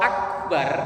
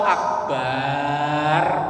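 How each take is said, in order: First: The vowel after the b is short. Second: The vowel after the b is drawn out long. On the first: It means the Greatest. The speaker calls it right. "akbar pendek baknya" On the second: It names an everyday object instead. The speaker calls it wrong. "akbar baknya panjang"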